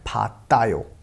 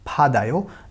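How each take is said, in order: First: The middle consonant is a hard t sound. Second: The middle consonant is a soft d sound. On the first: The speaker calls it wrong. "Not फातायो" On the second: The speaker calls it right. "इसका साउंड हो जाएगा पूरे वर्ड का फादायो"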